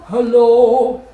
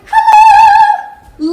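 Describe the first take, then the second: First: It is said in a low voice. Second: It is said in a high voice.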